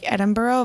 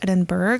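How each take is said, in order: First: The ending sounds like 'borough'. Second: The ending sounds like 'burg'. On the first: The speaker calls it right. "this scale is from Great Britain, so it's pronounced like Edinburgh" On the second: The speaker calls it wrong. "versus Edinburgh"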